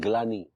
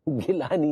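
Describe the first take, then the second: First: The g and l are joined with no vowel. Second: An extra vowel separates the g and l. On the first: The speaker calls it right. "ग्लानी होता पगली" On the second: The speaker calls it wrong. "गिलानी नहीं"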